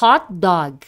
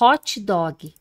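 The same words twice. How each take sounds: First: The t in hot has no vowel after it. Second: An extra 'ee' vowel follows the t in hot. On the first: The speaker calls it right. "Não, pelo amor de Deus" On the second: The speaker calls it wrong. "Os brasileiros colocam um i aqui"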